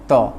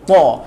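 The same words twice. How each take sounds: First: It is thick but the mouth is not full. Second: It is thick with a full mouth. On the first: The speaker calls it wrong. "Ta tu tebal jugalah, tapi dia tak penuh mulut tau" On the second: The speaker calls it right. "kita kena penuhkan mulut kita"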